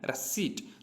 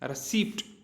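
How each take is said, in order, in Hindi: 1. t से पहले p की आवाज़ साइलेंट होती है। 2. p की आवाज़ t से पहले बोली जाती है।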